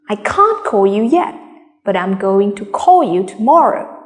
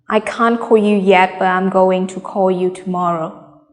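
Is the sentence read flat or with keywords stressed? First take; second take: keywords stressed; flat. First: Keywords are stressed, small words said quickly. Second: Every word is read evenly, without stress. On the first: The speaker calls it right. "Stress on the keywords. Read quickly through the structure words" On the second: The speaker calls it wrong. "No stress?"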